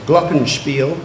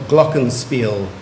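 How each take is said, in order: First: Glockenspiel said GLOCK-en-shpeel; first pronunciation. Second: Glockenspiel said GLOCK-en-speel; second pronunciation. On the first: Pronouncer offers a speller the first option, glockenspiel as GLOCK-en-shpeel. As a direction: say glockenspiel with a German "shp" before "eel". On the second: Pronouncer offers a speller the other option, glockenspiel as GLOCK-en-speel. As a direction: say glockenspiel with a plain "sp", no "sh". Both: Shown as a demonstration. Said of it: "You have two pronunciations".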